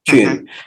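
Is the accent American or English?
English. It is said with an English accent.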